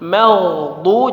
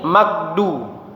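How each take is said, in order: First: The middle consonant is a soft throaty gh. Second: The middle consonant is a hard g. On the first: The speaker calls it right. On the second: The speaker calls it wrong.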